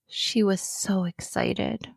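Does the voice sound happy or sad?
sad. It is read in a sad, flat voice. The speaker calls it wrong. "I'm not going to use a sad voice"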